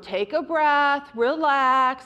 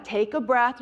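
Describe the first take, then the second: First: Put-on slow, calming words for a child; slow reassuring parent voice; slow soothing to a toddler. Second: Said in the usual way. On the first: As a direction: settle a screaming two-year-old gently. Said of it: "You would say to the two-year-old". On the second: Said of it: "you would say".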